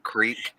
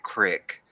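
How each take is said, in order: First: The vowel is long, rhyming with seek. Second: The vowel is short, rhyming with brick. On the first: This is the speaker's own way of saying it. "first of all, if that's what you mean, creek" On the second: This is the country way of saying it. "I ain't that country. I don't say crick"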